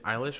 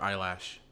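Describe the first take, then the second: First: The second syllable sounds like 'lish'. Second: The second syllable sounds like 'lash'. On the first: The speaker calls it right. "It's [name]" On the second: The speaker calls it wrong. "it makes you sound very 40 years old when you say Eyelash"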